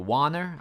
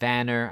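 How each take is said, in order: First: The name starts with a W sound. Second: The name starts with a V sound. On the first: The speaker calls it wrong. "I will call him Vanner instead of Warner" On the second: The speaker calls it right. "every W ... you just gotta pronounce it as the V way"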